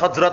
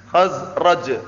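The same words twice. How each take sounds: First: The r and j sounds are swapped. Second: The r sound comes before the j sound. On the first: The speaker calls it wrong. "Jangan terbalik. Bukan bukan Khazraj itu bukan" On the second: The speaker calls it right. "ada jim, ada apa? Ra"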